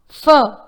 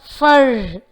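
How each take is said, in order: First: The final R sound is not pronounced. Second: The final R sound is clearly pronounced. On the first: The speaker calls it right. "its R sound is not pronounced in British English" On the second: The speaker calls it wrong. "not fur"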